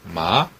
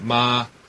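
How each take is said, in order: First: The pitch rises from middle to high. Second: The pitch stays high and level. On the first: It means hemp. "삼배 할 때 그 마자죠. 이성 마" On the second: It means mother. "엄마 할 때 마마 할 때 마 일성"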